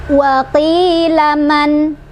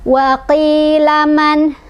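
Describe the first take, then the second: The two takes are said the same way.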